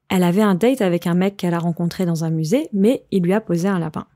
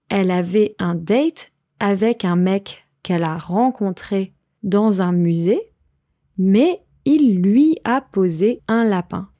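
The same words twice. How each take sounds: First: It is said at a faster pace. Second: It is said at a slower pace.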